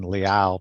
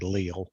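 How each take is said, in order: First: The name is said in its original form. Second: The name is said the North Carolina way. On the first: The speaker calls it right. "instead of saying Liao" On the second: The speaker calls it wrong. "when you grow up in North Carolina, they say Leal"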